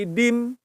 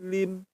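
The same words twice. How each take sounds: First: "dim" starting with a hard D; D sound. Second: "lim" starting with an L, not D; original L sound. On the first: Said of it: "Jangan pakai D". ("dim" diawali bunyi D) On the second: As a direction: say "lim" with a clear L in front. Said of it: "aslinya sih lim". ("lim" diawali bunyi L, bukan D) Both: Shown as a demonstration.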